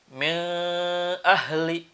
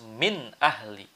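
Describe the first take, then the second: First: The n is blurred with a nasal hum. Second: The n is crisp and clearly pronounced. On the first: The speaker calls it wrong. "Tidak boleh ada misalnya min ahli" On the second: The speaker calls it right. "Harus min ahli. Nunnya terasa jelas"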